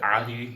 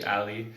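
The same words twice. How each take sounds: First: It is said with an Arabic-style accent. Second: It is said with an English accent.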